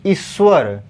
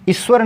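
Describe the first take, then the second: First: ईश्वर with a drawn-out first ī; long ī. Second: ईश्वर with a short first i. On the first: Teacher giving students the right form, long-ī ईश्वर. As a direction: hold the opening "ee" of ईश्वर. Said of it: "बड़ी ई की मात्रा लगेगा". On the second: Teacher showing students the wrong form, short-i ईश्वर. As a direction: say ईश्वर quickly on the opening i. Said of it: "ईश्वर नहीं". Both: Shown as a demonstration.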